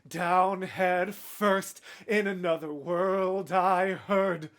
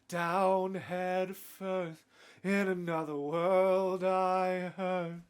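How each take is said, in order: First: Each word ending is fully and crisply pronounced. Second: Word endings fade away and trail off softly. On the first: The lines would not sound like they rhyme. "if you really pronounced it like" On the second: The lines sound like they rhyme more. "the way he brings his delivery is like"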